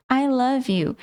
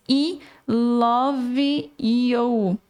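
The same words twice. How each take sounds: First: "I love you" said naturally, "ai lav iu"; plain English "I love you", linked. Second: "I love you" dragged slowly as "i lovi iou"; wrong spelling-pronunciation. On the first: Teacher giving the familiar correct "I love you". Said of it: "Você já sabe disso". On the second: Teacher demonstrating the wrong Portuguese-style reading of "I love you". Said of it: "Tá errado". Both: Shown as a demonstration.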